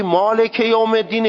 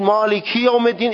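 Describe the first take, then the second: First: مالک with a short "e" at the end, maleke yawm; short, open kasra on مالک; no lengthening. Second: مالکی with a clear "i", maliki yawm; kasra as i. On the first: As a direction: say مالک یوم الدین Persian-style, "maleke". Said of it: "این اشباع نیست". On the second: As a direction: say مالکی یوم الدین with i in place of e. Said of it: "این اشباع". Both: Shown as a demonstration.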